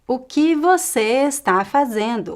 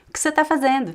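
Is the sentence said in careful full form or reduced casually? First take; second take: careful; reduced. First: Every syllable is pronounced fully and carefully. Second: Unstressed syllables are reduced and almost disappear. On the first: The speaker calls it wrong. "Nobody speaks like that in natural speech" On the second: The speaker calls it right. "I would say"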